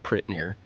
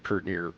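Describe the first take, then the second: First: The word 'pretty' is shortened to 'prit'. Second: The word 'pretty' is shortened to 'pert'. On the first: "or or uh" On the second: "You'd say"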